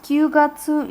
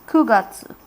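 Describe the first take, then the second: First: The first syllable is 'kyu'. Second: The first syllable is 'ku'. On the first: The speaker calls it wrong. "it is not Kyugatsu" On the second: The speaker calls it right. "it is Kugatsu"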